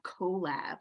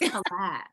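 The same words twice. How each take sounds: First: The first syllable has a long 'oh' vowel. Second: The first syllable has a short 'uh' vowel. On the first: The speaker calls it wrong. "it's not collab, like colon" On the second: The speaker calls it right. "It's collab. ... because it's called collaboration"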